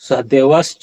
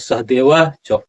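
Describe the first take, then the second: First: The first word ends with an s sound. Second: The first word ends with a long a. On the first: The speaker calls it wrong. "नहीं होगा" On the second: The speaker calls it right. "इस तरह से यहाँ उच्चारण क्या होगा"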